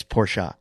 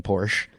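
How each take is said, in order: First: Porsche as "POR-shuh"; two syllables on Porsche; corrected pronunciation. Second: Porsche as "porsh"; one-syllable Porsche. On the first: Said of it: "Please stop saying Porsche". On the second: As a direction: silent final e on Porsche. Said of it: "I kept calling it Porsche". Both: Retold or imitated.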